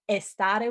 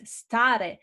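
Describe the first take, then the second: First: The word begins with an added e sound. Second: The word begins directly with an s sound. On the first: "estare with an E" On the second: "in Italian is stare"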